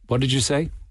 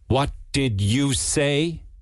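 First: It sounds like a plain, neutral question. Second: It sounds sharp and scolding, like a warning. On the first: The speaker simply did not hear. "You could say" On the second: The listener has said something unacceptable. "Or you could say it as a mother would say it"

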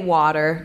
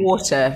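First: It is said in an American accent. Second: It is said in a British accent. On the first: "they say water" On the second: "Now they're saying water, so I'm thrilled"

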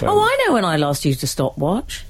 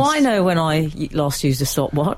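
First: It is said in a very excited tone. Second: It is said in a calmer, less excited tone. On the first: The speaker calls it wrong. "I didn't mean to sound quite so excited" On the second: The speaker calls it right. "I'll try that again"

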